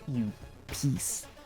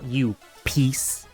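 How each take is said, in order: First: It is said quietly, almost whispered. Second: It is said loudly, at full voice. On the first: The speaker calls it wrong. "that was a little A S M R-y" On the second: The speaker calls it right. "I should have said that louder"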